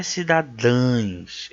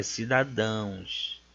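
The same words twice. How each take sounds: First: Slow cidadãs with the ending said as -ães; wrong plural ending. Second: Slow, soft cidadãos ending in nasal -ãos; correct plural ending. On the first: Teacher showing students the mistaken plural, ending marked. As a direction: end cidadãs in a nasal "ãins" sound. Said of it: "Não é cidadãs". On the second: Teacher correcting the plural of cidadão, ending marked. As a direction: end cidadãos in a nasal "ãuns", lower and softer. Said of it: "é cidadãos". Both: Shown as a demonstration.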